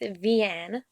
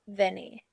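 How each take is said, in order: First: The name is said in its standard form. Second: The name is said in an altered form. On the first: The speaker calls it right. "correctly pronounced" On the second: The speaker calls it wrong. "how I pronounce it"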